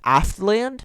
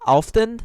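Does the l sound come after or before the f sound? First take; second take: after; before. First: The l sound comes after the f sound. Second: The l sound comes before the f sound. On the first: The speaker calls it wrong. "I thought that Alfdend was Aftland, just changing like the direction of the F, T, and L" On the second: The speaker calls it right. "these things do not have the pronunciation I thought they did"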